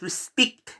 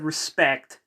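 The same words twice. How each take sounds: First: The word is said with a New Zealand accent. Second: The word is said with a standard accent. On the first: This is how someone else says it. "she says respect" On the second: This is the usual way to say it. "instead of respect"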